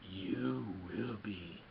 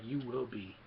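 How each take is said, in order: First: Very slow, low, ominous creature voice; creepy Yoda. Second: A hint of the ominous puppet master; Yoda. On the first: Retold or imitated. Yoda warning Luke a second time, low creepy drawl. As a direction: stretch every word into an eerie warning. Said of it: "this is kind of a little creepy". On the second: Yoda warning a fearless Luke, lightly imitated. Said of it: "Yoda's like".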